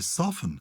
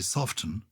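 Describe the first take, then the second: First: The T in the middle is silent. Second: The T in the middle is pronounced. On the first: "I say soften" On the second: "I don't say soften"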